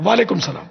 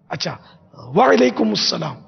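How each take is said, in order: First: وعلیکم السلام clipped fast as 'walekum salaa'; swallowed hurried greeting; rushed reply. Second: Slow وعلیکم السلام with stress on وعلیکم; careful demo reply. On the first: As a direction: toss off وعلیکم السلام carelessly. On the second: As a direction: draw out وعلیکم السلام deliberately. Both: Shown as a demonstration. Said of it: "یہ بھی غلط ہے".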